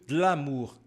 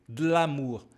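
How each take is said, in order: No difference in how they are said.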